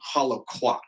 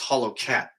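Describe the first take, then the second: First: The last part is said with a kw sound. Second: The last part is said with a plain k sound. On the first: The speaker calls it wrong. "I said it wrong. I said quat" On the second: The speaker calls it right. "and it's cat"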